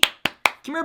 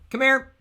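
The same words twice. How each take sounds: First: It is said in a sweet, coaxing voice. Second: It is said in a plain, ordinary voice. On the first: The dog is being lured gently. The speaker calls it wrong. "I don't want to sound like I'm angry" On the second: The dog is simply being called. The speaker calls it right. "When you just say come here in a normal voice"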